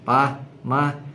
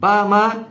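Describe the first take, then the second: First: It is said at a normal volume. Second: It is said louder and higher still. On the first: The child asks once, calmly. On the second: The child keeps insisting more strongly.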